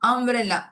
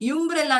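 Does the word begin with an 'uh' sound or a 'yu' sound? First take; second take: uh sound; yu sound. First: The word begins with a short 'uh' sound. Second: The word begins with a 'yu' sound. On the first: The speaker calls it right. "ಯುಗಿರೋ ಶಬ್ದ ಅ ಅ" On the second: The speaker calls it wrong. "ಯುಂಬ್ರೆಲ್ಲ ಅಂತ ಹೇಳ್ತೀವಾ. ಇಲ್ಲ ಹೇಳಲ್ಲ"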